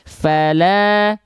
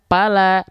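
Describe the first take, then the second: First: The word begins with an F sound. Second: The word begins with a P sound. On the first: The speaker calls it right. "harusnya kita baca fala" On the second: The speaker calls it wrong. "tapi kita baca pala"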